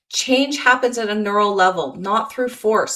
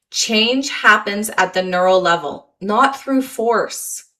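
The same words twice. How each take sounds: First: Said in the usual way. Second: Not through force slowed and stretched right out; emphatic. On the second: Shown as a demonstration. Coach stressing the key point to listeners, slowly. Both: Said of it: "Let me say that again".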